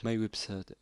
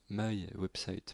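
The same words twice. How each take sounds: First: Said in the usual way. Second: "My Website" redone slowly in an English accent, "maï ouèbsaït"; slow down and give "My Website" a proper English accent; careful, exaggerated English accent on "My Website". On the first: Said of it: "pardon. Voilà, l'accent anglais". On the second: Shown as a demonstration. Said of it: "Voilà, l'accent anglais".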